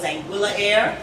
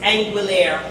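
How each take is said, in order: First: The name is said as two separate words. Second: The name is said as one blended word. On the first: The speaker calls it wrong. "I thought it was Anguilla Air" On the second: The speaker calls it right. "the correct uh, pronunciation"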